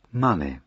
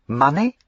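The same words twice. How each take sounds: First: Money. at his own level, falling flat. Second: Money? asked higher with a sharp rise; Money? rising. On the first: The Duke echoing her, money. falling flat. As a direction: drop money. down, dry and final. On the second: Lavinia guessing his errand, Money? rising high. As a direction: lift Money? up as a dismayed question. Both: Acted.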